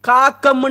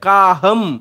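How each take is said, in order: First: The middle consonant is a hard k sound. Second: The middle consonant is a soft h sound. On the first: The speaker calls it wrong. "காக்கம் என்றும் வாசிக்கிறது கிடையாது" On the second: The speaker calls it right. "காகம் ஹம் என்று வாசிக்கிறோம்"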